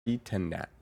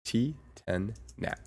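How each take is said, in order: First: Said in the usual way. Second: "T ten Nat" said slowly, each syllable spaced out; careful name pronunciation. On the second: Shown as a demonstration. Checking the name with the chat, slow and deliberate. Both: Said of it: "Let me see if I'm saying this right".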